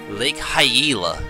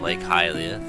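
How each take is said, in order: First: The name is pronounced with altered vowels. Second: The name is pronounced the standard way. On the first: The speaker calls it wrong. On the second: The speaker calls it right.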